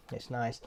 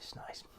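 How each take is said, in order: First: Said in the usual way. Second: Breathy whispered "It's nice." after a sip. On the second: Real, not acted. Savouring a sip of Lemsip.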